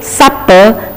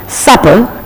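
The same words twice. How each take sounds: First: The middle P is held long and stressed. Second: The middle P is short and plain.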